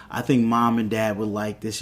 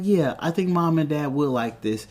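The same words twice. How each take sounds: First: Retold brother's remark. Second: Retold sister's agreement. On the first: Brother retold chatting to his sister, understated casual remark. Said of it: "and he's like". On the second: Sister retold agreeing with her brother, lightly raised voice. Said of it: "And she's like".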